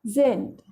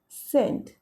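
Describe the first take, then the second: First: The word begins with a z sound. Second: The word begins with an s sound.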